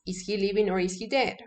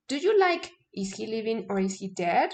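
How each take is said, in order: First: Said in the usual way. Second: Whole line as a question, rising at the end; question tune. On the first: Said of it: "the name of the book is". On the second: Shown as a demonstration. Teacher showing a yes/no question with a book title, rising tune. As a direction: ask it as a real question that rises at the end.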